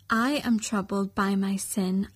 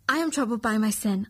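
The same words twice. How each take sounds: First: It is said at a normal speed. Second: It is said at a faster speed.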